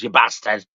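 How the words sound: It is said in a northern English accent. "like he's fucking like a northerner"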